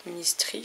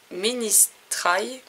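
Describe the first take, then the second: First: Ministry ending in "tree", with a French accent; alternative pronunciation. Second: Ministry drawn out, ending in "try" to rhyme with eye; hesitant pronunciation. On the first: Vlogger second-guessing an English word, Ministry ending in an "ee" sound. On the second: Unsure vlogger trying an English word, Ministry ending in a long "eye" sound. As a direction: stretch Ministry slowly, last syllable like "trye". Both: Shown as a demonstration. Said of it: "je sais pas comment on dit".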